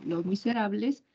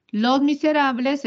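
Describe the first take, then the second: First: Said in the usual way. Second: Los Miserables raised high and loud; teacher's emphatic example, Los Miserables said high and loud; stressed example. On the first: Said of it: "a eso le llamamos frase". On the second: Shown as a demonstration. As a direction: lift Los Miserables high to show the contrast. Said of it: "Fíjate esa diferencia".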